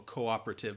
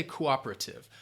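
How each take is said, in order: First: "cooperative" opening on a clear, long "koh"; soft, low "cooperative" with a rounded first O; fuller O sound. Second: "cooperative" with a reduced first O, stress on OP; speaker's own pronunciation. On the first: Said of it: "might say that O sound more". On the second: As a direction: say "cooperative" with a brief opening vowel, leaning on OP. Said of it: "but I'd say cooperative". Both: Shown as a demonstration.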